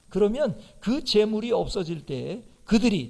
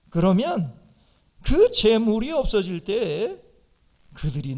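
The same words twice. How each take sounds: First: It is read in a plain, neutral tone. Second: It is said in a mocking, sarcastic tone. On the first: It is read as a literal instruction. "아까 읽을 때는 그냥 읽었는데" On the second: It is satire mocking the listeners. "좀 실감나게 해볼까요? 예수님이 이렇게 했어요"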